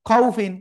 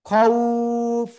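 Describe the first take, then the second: First: The word ends with a short i and n. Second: The word stops on f after a long vowel. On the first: "ফাদুইজের ফিন" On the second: "থেমে পড়লে কি করব? খাউফ, এভাবে পড়বো।"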